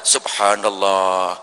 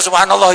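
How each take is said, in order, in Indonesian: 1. Ucapan ini diucapkan pelan dan hati-hati. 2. Ucapan ini diucapkan cepat dan terburu-buru. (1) "pelan-pelan saja, tetapi yang berkualitas" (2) "kadang-kadang cepat-cepat macam subhanallah"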